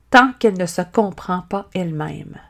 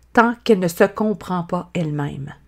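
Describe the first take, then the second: The two takes are said the same way.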